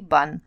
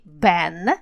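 First: The vowel is an open 'ah' sound. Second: The vowel is the front 'a' of cat. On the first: The speaker calls it wrong. "а не бан" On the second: The speaker calls it right. "«Italians» и «ban»"

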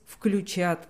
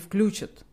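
First: The stress falls on the last syllable. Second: The stress falls on the first syllable. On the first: The speaker calls it right. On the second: The speaker calls it wrong.

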